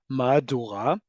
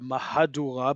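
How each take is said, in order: First: The middle syllable is dropped. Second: The middle syllable is fully pronounced.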